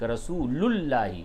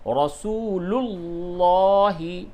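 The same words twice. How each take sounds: First: The L is thin and light. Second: The L is heavy and full-mouthed. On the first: The speaker calls it wrong. "ये बारीक हो गई, लाम क्या हो गई, बारीक" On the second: The speaker calls it right. "पूरे मुंह भर के आवाज़ निकलेगी"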